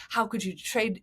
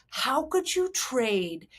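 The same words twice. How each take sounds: First: Everyday fan grumble at normal volume; regular sports talk. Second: Slow, drawn-out, higher mock outrage; outraged fans. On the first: Retold or imitated. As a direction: mildly imitate a complaining sports fan. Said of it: "kind of regular sports talk". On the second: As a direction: stretch it out as an appalled fan's protest. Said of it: "then it went into Lesbianville".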